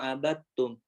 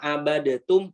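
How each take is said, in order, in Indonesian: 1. Huruf d langsung nyambung ke t. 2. Vokal pendek memisahkan konsonan tengah.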